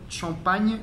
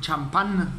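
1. Se dice con sonidos franceses, terminando en -agne. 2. Se dice con sonidos españoles, terminando en -án. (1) "champagne en francés" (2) "en México creo que dicen champán"

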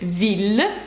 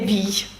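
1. Слово закінчується на чіткий звук L. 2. Слово закінчується на звук-глайд Y. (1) "запам'ятайте, це «віль»" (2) "не «вій», як можна подумати"

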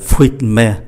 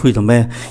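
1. Nguyên âm ở giữa bị bỏ hoàn toàn. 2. Nguyên âm ở giữa được phát âm đầy đủ. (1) "người ta không phát âm, còn lại fruit me" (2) "nói chung cái chữ này với nhau free the me"

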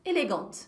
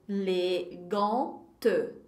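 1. A palavra é dita em velocidade normal. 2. A palavra é lida muito devagar. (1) "Mas elegante" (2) "Se alguém for ler bem devagarzinho, vai ser elegante"

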